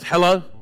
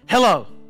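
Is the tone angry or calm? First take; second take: calm; angry. First: It is said in a calm tone. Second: It is said in an angry tone.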